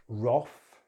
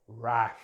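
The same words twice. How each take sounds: First: "Wrath" as roth; British "Wrath" with rounded o; British pronunciation. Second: "wrath" rhyming with math; American "wrath" with a as in cat; American pronunciation. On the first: Teacher contrasts accents, "Wrath" said roth. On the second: Teacher contrasts accents, "wrath" rhyming with math. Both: Shown as a demonstration. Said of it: "British English or American English".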